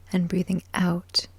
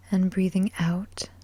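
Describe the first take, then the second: No difference in how they are said.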